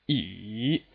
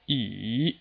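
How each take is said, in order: No difference in how they are said.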